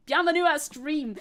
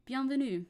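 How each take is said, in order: First: Put-on loud "Bienvenue à stream" with the French accent dropped; mock "Bienvenue à stream" in loud anglophone French; joking accent-free French. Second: Said in the usual way. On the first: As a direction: belt out "Bienvenue à stream" in flat English sounds, no French accent. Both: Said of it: "No accent anymore".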